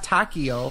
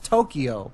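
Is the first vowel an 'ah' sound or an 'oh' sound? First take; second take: ah; oh. First: The first vowel is an open 'ah' sound. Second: The first vowel is an 'oh' sound. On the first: The speaker calls it wrong. "It's not Takio" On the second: The speaker calls it right. "like the O in no"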